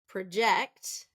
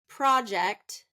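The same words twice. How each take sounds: First: It is said as the verb, stressing the second syllable. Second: It is said as the noun, stressing the first syllable. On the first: It names an action. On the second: It names a thing.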